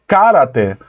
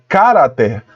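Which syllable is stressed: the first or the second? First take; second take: first; first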